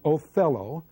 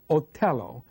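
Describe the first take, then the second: First: The name is pronounced the English way. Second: The name is pronounced the Italian way. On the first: "instead of saying Othello" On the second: "I'm going to use the Italian pronunciations"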